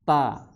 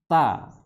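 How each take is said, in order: No difference in how they are said.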